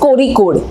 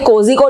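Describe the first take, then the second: First: The middle consonant sounds like an R. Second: The middle consonant sounds like a J. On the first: This is how the name is actually said. The speaker calls it right. "But उसको pronounce किया जाता है कोरिकोड" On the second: This follows how the name is written. The speaker calls it wrong. "Spelling में कोजिकोड जैसा लिखता है"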